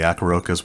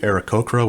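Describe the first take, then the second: First: The name is said as ah-kah-ro-kahs. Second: The name is said as ah-rah-ko-krah. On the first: The speaker calls it wrong. "which I know was definitely wrong" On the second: The speaker calls it right. "which I'm hoping I'm saying correctly"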